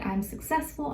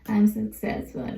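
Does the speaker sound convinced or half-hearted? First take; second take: convinced; half-hearted. First: It is said with conviction, really meant. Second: It is said half-heartedly, without conviction.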